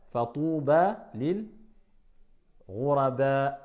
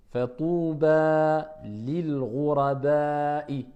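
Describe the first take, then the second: First: Ghuraba said without the final vowel when stopping; pausal form. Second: Fatouba lil ghuraba'i with the long a of Fatouba drawn out, slow; lengthened vowel. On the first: Teacher shows how to stop on ghuraba, final vowel dropped. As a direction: drop the last vowel: ghuraba, not ghuraba'i. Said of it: "Si je m'arrête". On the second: Teacher shows the long vowel to the students, slowly. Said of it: "La prolongation". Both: Shown as a demonstration.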